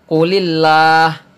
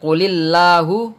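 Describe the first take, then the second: First: The word ends on a bare h sound. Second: The word ends with a short u vowel. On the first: The speaker calls it right. "akan tetapi qulillah. hu ini menjadi sukun" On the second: The speaker calls it wrong. "Bukan qulillahu"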